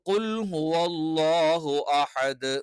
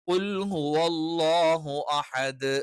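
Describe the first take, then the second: No difference in how they are said.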